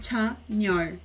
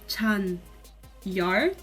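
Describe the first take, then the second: First: The n starts the second syllable. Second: The n stays at the end of the first syllable. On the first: This is how it is actually spoken. "mas a pronúncia pode ser Chan-yor" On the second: This follows the spelling. "A grafia é Chan-yor"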